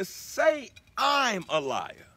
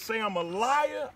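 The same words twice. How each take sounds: First: I'm stretched out slowly and set apart; stress on I'M. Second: Said in the usual way. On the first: Shown as a demonstration. Speaker quoting the lyric to listeners, with emphasis on I'm. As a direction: lean long and hard on "I'm" before "a liar". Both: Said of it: "put emphasis on the word I'm".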